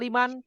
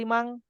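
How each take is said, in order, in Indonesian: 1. Bunyi n di akhir diucapkan dengan jelas. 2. Bunyi n di akhir diucapkan seperti ng. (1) "Kenapa liman" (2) "tidak limang?"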